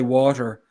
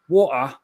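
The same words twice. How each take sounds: First: It is said in the speaker's own non-English accent. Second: It is said in the wife's English accent.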